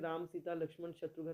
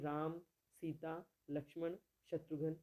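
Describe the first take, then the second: First: The names are run together without pauses. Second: A short pause follows each name.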